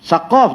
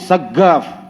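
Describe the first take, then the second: First: The middle consonant is a deep q sound. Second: The middle consonant is a hard g sound. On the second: "Dia bunyi ga"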